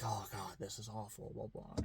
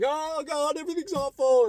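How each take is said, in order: First: Much softer, lower groaning lament; soft mock-gloomy grumble; mock villagers despairing. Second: Much higher, louder panicky wail; high loud mock-distraught cry. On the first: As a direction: moan it like dismayed neighbours. Villagers despair at the new ruler. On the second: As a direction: wail like someone losing it. Someone panicking at bad news.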